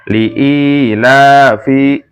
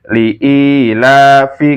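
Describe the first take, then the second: No difference in how they are said.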